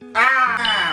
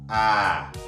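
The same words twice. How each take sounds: First: It is a loud shout full of feeling. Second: It is a small, weak shout.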